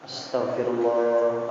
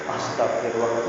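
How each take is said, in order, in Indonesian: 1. Diucapkan dengan pelan dan sungguh-sungguh, penuh perasaan. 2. Diucapkan dengan cepat dan sambil lalu, menyatu. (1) "ayolah yang serius" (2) "tapi ngomongnya astagfirullah astagfirullah nyambung"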